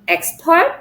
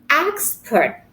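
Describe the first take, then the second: First: The stress is on the second syllable. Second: The stress is on the first syllable. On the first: The speaker calls it wrong. "not expert" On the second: The speaker calls it right. "we put the stress at the first syllables"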